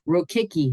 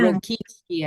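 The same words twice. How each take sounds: First: The name is said with an American pronunciation. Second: The name is said with a Polish pronunciation. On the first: This is how the family says it today. "is how we pronounce it now" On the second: This is how the name was originally said. "I think, in Polish"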